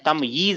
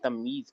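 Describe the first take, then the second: First: It is said with a y sound in the middle. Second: It is said without a y sound in the middle. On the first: This is the original Arabic form. "उसका जो बोलने का तरीका है वो क्या है? तमयीज है ये। दो या" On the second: This is the everyday Urdu form. "जो उर्दू की तमीज है वो यही है"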